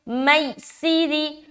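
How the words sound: It is said harshly and forcefully. The speaker calls it wrong. "इस तरह सख्त नहीं करना"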